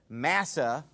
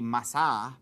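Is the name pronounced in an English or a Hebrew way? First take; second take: English; Hebrew. First: The name is said with an English-style pronunciation. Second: The name is said with a Hebrew pronunciation. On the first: "or that's how I pronounce it" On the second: "the Hebrew way to pronounce it would be Massah"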